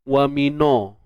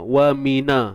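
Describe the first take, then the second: First: The vowel after n is rounded and thick. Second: The vowel after n is open and unrounded. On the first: The speaker calls it wrong. "kalau kita muncung bibir nanti bimbang bunyinya ada kelainan sikit" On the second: The speaker calls it right. "tak perlu kita muncungkan bibir"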